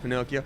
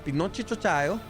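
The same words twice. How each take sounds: First: It is said with a plain English pronunciation. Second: It is said with an Italian pronunciation. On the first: The speaker calls it wrong. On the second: The speaker calls it right.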